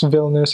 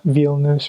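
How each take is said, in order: First: The first vowel is a short I sound. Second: The first vowel is a long E sound. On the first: The speaker calls it right. "it's actually a short I, just like English" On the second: The speaker calls it wrong. "It's not Vilnius or something"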